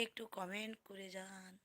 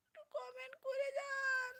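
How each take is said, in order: First: Said in the usual way. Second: Very high, softer pleading wail; mock crying. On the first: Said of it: "আমার না হলে কান্না পাচ্ছে". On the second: Streamer begs viewers for comments, mock crying. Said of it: "কেঁদেই দিলাম".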